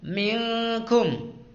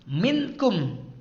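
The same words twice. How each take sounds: First: The n sound is hidden and nasalized. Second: The n sound is pronounced clearly. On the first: The speaker calls it right. "Minkum dengan samar atau dengung" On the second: The speaker calls it wrong. "tidak boleh dibaca minkum"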